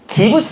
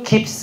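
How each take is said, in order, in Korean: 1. 세 음절로 발음해요, 'gi-beu-seu'. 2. 두 음절로 발음해요, 'gip-seu'. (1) "하면 안 되고요" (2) "해야 되고요"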